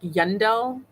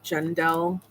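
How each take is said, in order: First: The name begins with a Y sound. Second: The name begins with a hard G sound. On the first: The first letter is read as a Y. "it actually looks like a Y. Like Yun like Yundel" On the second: The first letter is read as a G. "I'm guessing it's pronounced like Gendel"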